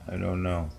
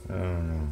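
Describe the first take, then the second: No difference in how they are said.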